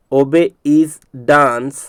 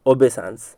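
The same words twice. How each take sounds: First: "obey is dance" very slow and separated; broken into parts. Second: Said in the usual way. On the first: Shown as a demonstration. Teacher drilling the split word, broken into parts. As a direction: draw out each piece of "obey is dance". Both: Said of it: "इसलिए इसको तोड़ करके बता रहा हूँ".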